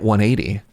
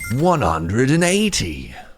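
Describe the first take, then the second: First: It is said in a plain normal voice. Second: It is said in a billiards announcer voice.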